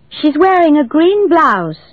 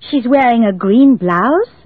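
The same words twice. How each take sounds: First: The voice falls at the end, a statement. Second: The voice rises at the end, a question.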